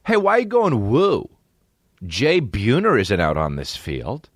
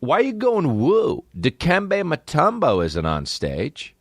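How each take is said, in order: First: High mock scolding, slowing down; mock outrage. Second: High, slow exasperated demand; mock outrage. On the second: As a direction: scold the crowd in a high drawn-out voice. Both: Comic scolding an audience member who whoops, high and slow.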